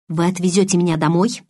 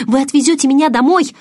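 First: Said in the usual way. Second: Высокая, громкая мольба; настойчиво упрашивай, голос вверх. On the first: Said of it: "у меня хватило сил продолжать". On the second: A narrator's reading. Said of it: "взмолилась я". (умоляюще, высоко и громко)

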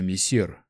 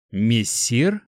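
First: Said in the usual way. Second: "Мессир" with a rising, querying end; questioning. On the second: A narrator's reading. Young hunter queries the mage's title, "Мессир" rising questioningly. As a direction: echo "Мессир" as a puzzled question, pitch climbing. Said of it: "Март вопросительно посмотрел".

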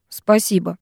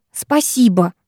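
First: Said in the usual way. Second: Mimicking retort. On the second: A narrator's reading. Girl echoing boy's thanks back, sarcastically. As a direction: throw the thanks back at him. Throwing his words back at him.

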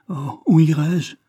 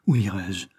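First: Higher, louder, slower anguished plea; a lost woman crying out; desperate cry. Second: Said in the usual way. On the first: Acted. Héroïne se lamente seule. (cri désespéré, plus aigu, plus fort et plus lent)

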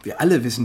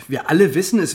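First: Said in the usual way. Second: Alle punched and louder; stress on alle. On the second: Acted. Insisting to the group that everyone knew about Grégoire, stress on alle. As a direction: hit the word alle hard. Repeated for emphasis.

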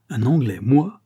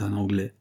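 First: Loud, offended exclamation, voice lifted; a sailor stung by an insult; indignant outcry. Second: Said in the usual way. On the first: A narrator's reading. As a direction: throw the word back, affronted. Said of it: "s'écria le capitaine avec indignation".

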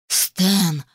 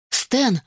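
First: Drawn-out growl of his name; restrained growl. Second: Higher, falling call of his name; sharp bark. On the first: Bride glaring at her fiancé, growling his name. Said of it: "прорычала я". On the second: Bride tugging at her fiancé, barking his name. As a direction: bark at him without really shouting. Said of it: "рявкнула я". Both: A narrator's reading.

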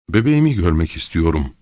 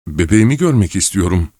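First: Said in the usual way. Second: Louder, on the edge of exploding; insist, almost screaming; near scream. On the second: A narrator's reading. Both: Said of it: "neredeyse çığlık atacaktı".

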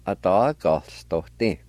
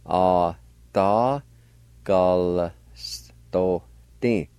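First: Said in the usual way. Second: "Atagalstote" very slowly, each syllable held; syllable-by-syllable pronunciation. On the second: Shown as a demonstration. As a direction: stretch and separate every syllable of "Atagalstote". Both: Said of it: "with the G A like this".

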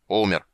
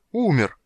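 First: Short, grumpy «Умер» with little pitch movement; grumbled. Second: High, loud, stunned «Умер!»; shocked roar. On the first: Busy old man answering the dragon, grumbling. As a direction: toss off «Умер» grudgingly. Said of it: "ворчливо буркнул старик". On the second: Dragon learning of his hero's death, shocked roar. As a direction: roar it in disbelief. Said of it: "потрясённо взревел золотой". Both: A narrator's reading.

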